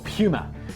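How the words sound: It is said with a British pronunciation.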